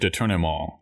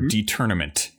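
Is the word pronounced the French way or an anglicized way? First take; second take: French; anglicized. First: The word has a French-like pronunciation. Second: The word has an altered, anglicized pronunciation. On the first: The speaker calls it right. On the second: The speaker calls it wrong.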